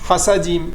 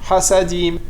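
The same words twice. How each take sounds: No difference in how they are said.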